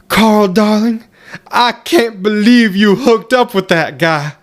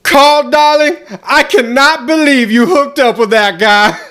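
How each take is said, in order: First: It is said at a normal volume. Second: It is yelled very loudly.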